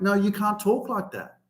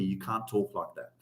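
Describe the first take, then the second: First: Lightly voiced parental scolding, higher; a hint of parents laying down the law. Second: Low, soft dad telling off; a quiet hint of a scolding father; dad scolding his swearing son; stern dad. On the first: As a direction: parents telling off their grown son. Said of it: "they're trying to tell me". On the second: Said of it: "he's telling me".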